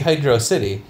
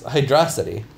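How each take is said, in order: First: It is said as two separate words. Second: It is said as one single word. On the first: The name is treated as two separate words. "If it was two words, it'd be Hydro City" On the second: The name is treated as one single word. "But if it's one word, it's Hydrocity"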